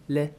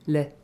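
Both takes have the same delivery.

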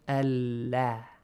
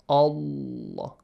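First: The L is light, with a flat, open mouth. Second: The L is heavy, with a full, rounded mouth. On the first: "You open your mouth flat this way" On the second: "the letter Lam in the word Allah is pronounced heavily with a full mouth"

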